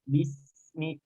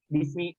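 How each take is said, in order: First: The s sound flows on and lasts longer. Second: The s sound is cut off quickly. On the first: The speaker calls it right. "tapi bismi karena dia nanti memiliki sifat tokoh, artinya aliran uh, suara" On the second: The speaker calls it wrong. "jangan sampai bismi"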